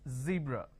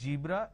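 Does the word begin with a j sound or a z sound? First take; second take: z sound; j sound. First: The word begins with a z sound. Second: The word begins with a j sound. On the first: The speaker calls it right. "it's zebra" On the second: The speaker calls it wrong. "It's not zebra, replace the z with a j"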